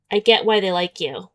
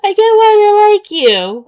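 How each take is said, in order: First: Said in the usual way. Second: High, loud, mocking shout of the line; exasperated mock. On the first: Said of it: "we've already said this". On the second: Fed up with the same compliment, high loud mockery. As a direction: throw the line back, sick of it.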